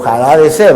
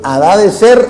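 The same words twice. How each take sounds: First: The name begins with a throaty J-like sound. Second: The name begins with a silent h.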